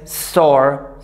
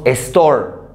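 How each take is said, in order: First: The word starts directly with the s sound. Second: An e vowel sound comes before the s. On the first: The speaker calls it right. "Y es store" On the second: The speaker calls it wrong. "Decimos store. No podemos decir eso"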